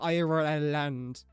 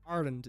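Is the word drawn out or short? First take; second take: drawn out; short. First: The word is drawn out in an American accent. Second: The word is said short, in two syllables. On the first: "the way Americans pronounce Ireland. It's like they have seventeen syllables" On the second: "it's two"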